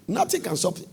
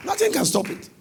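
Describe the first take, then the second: First: Said in the usual way. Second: Nothing can stop it, with a high, punched Nothing; emphatic declaration. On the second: Real, not acted. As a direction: drive the word Nothing home, high and strong. Preacher repeats line with force.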